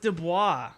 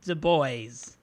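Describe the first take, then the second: First: The name is said with a French-style ending. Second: The name ends like the English word boys. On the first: This is the real New Orleans pronunciation. The speaker calls it right. "Oh, it's Dubois" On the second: This is how the video game said it. The speaker calls it wrong. "what Backyard Baseball pronounced it at, which was Du Bois. We'll call them Du Boys"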